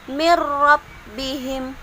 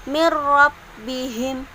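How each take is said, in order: No difference in how they are said.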